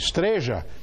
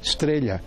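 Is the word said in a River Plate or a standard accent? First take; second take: River Plate; standard. First: It is said with the River Plate pronunciation. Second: It is said with the standard pronunciation. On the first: "é estreja" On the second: "Lá não tem estrela"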